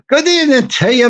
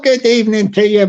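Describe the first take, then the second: First: It is said in an Irish accent. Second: It is said without an Irish accent.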